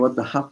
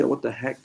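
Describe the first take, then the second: First: "heck" said as "hup"; kid's mispronunciation. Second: Said in the usual way. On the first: Retold or imitated. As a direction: imitate a child turning "heck" into "hup". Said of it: "one of my kids saying". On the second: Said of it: "when you say".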